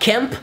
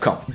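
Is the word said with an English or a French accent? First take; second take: English; French. First: It is said with an English accent. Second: It is said with a French accent. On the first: "It's like camp" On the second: "but without the English accent"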